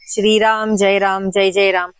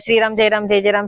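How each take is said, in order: First: It is said slowly and evenly in one rhythm. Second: It is said quickly and in a hurried way. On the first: The mind is calm while remembering God. The speaker calls it right. "ऐसे एक लय में एक सुर के साथ" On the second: The mind is rushed and not calm. The speaker calls it wrong. "बहुत जल्दी गड़बड़ी में नहीं कीजिएगा"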